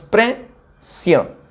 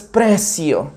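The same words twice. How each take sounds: First: PRE, pause, CIO; split into syllables. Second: Said in the usual way. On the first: Shown as a demonstration. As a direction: say precio slowly as two separate syllables. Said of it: "No podemos separarla de otra forma". (precio, separado: pre-cio) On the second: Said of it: "Entonces decimos".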